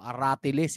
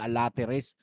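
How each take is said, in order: First: It sounds like a-ra-ti-les, with r second. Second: It sounds like a-la-te-res, with l second. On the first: The speaker calls it right. "aratiles hindi alateres" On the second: The speaker calls it wrong. "laging nami-mispronounce ng lahat"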